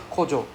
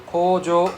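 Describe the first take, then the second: First: Kojo with short, quick vowels; short O sounds. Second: Kojo with drawn-out O vowels; long O sounds. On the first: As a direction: say kojo without dragging the O. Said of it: "don't have the long sound". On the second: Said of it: "Got difference". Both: Shown as a demonstration.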